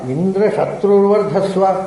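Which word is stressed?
shatru. The stress falls on the word shatru. "ಶತ್ರುವಿಗೂ ಒತ್ತು ಕೊಡಬಹುದು"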